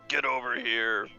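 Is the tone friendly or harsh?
harsh. It is said in a harsh way.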